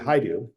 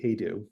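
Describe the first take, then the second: First: The name is said the Hungarian way. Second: The name is said the family's own way. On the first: This is how it is said in Hungary. "if you were in Hungary, it would be Haidu" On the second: This is how the family says it. "it is actually Hejdu"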